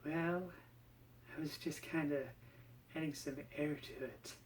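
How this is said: The voice is airy and breathy.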